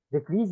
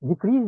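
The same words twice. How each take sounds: First: "decrease" stressed on the first syllable, DE-crease; noun stress. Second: "Decrease" stressed on the second syllable, de-CREASE; verb stress. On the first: Teacher showing the noun "decrease", stress on DE. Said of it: "decrease is a noun". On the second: Teacher showing the verb "Decrease", stress on CREASE. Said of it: "Decrease is a verb". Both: Shown as a demonstration.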